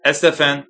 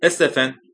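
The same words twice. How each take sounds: First: Name called out loud and angrily; angry loud call. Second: Mildly aggressive address by name. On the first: Angry man calls out to Stephen, loud and sudden. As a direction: call out sharply in anger. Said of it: "یک صدای خشمگین و بلند". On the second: Defensive former student confronts his teacher, mildly aggressive. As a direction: confront him with restrained aggression. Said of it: "با همان لحن پرخاشجویانه". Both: A narrator's reading.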